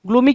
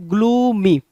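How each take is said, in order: First: Said in the usual way. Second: gloomy drawn out, falling on the last syllable; long, sinking ग्लू-मी; gloomy tone. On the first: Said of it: "पढ़ते ही इसके tone से". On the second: Shown as a demonstration. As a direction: stretch gloomy so the tone carries its meaning. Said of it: "इसके tone से इसकी meaning समझ में आनी चाहिए".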